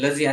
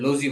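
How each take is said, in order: First: The vowel sounds like 'uh'. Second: The vowel sounds like 'oh'. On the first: The speaker calls it right. "આને લઝી બોલાય છે" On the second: The speaker calls it wrong. "આપણે લોઝી બોલે છે"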